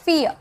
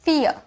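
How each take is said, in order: First: The vowel sounds like 'ear'. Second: The vowel sounds like 'ear'.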